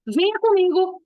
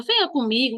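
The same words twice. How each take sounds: First: "Venha comigo" as a firm order, a bit higher; mother's firm command. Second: A mother's gentle request. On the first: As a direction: order it, no room to refuse. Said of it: "Uma dá aquele tom mais de pedido". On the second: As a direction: ask it as a kind favor. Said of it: "você sabe que é um pedido". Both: Shown as a demonstration.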